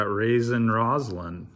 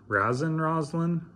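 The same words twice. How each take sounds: First: Said in the usual way. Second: "Raisin" tried out as RAZ-in, higher and questioning; Raisin as "razzin". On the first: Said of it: "Raisin Roslin? Raisin". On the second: Shown as a demonstration. Card opener trying another reading of the name, "Raisin" rhymed with "jazzin'". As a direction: say "Raisin" with the a of "jazz".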